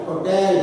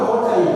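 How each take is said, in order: First: "hotel" stressed as ho-TEL; corrected "hotel", second syllable stronger. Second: "hotel" wrongly stressed as HO-tel; the mistaken "hotel", first syllable stronger. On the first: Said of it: "stress is on the second syllable". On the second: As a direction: hit the "ho" of "hotel". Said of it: "not on the first syllable". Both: Shown as a demonstration.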